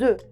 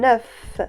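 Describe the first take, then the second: First: The final F sound is not pronounced. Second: The final F sound is pronounced. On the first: It refers to several eggs. "Mais au pluriel, non" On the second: It refers to one egg. "Ici, j'ai prononcé la consonne finale de mot œuf. F"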